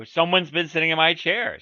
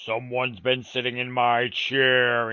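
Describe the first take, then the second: First: Louder middle-sized bear complaint; lightly voiced middle bear, loud; middle bear's middle voice. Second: Slow, loud gruff big bear; great huge gruff voice. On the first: Middle bear finds his chair sat in, middle voice. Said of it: "in his middle voice". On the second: Big bear finds his chair sat in, gruff and slow. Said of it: "in his great, huge, gruff voice". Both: A narrator's reading.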